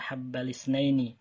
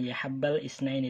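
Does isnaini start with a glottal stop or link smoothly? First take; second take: linked; glottal stop. First: The vowel links smoothly into isnaini without a stop. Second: A glottal stop separates the article and isnaini. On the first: The speaker calls it right. "Jadi dibaca ya habbal isnaini" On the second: The speaker calls it wrong.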